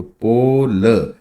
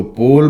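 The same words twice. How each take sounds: First: पोल said slowly with the ओ drawn out; slowed demo. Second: Said in the usual way. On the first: Shown as a demonstration. Teacher slowly contrasting पोल with पॉल. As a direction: draw out the ओ of पोल. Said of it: "तो पोल बोलते हैं". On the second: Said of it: "इसी को word को पोल".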